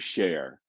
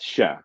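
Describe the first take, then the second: First: The word is drawn out, not cut off. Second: The word is very short and cut off. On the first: The speaker calls it wrong. "it's not pronounced that way at all" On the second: The speaker calls it right. "It's a very short, like it's cut off"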